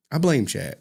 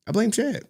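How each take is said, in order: First: Said in the usual way. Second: High mock accusation. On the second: Real, not acted. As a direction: pitch "Chad" up high and pointed.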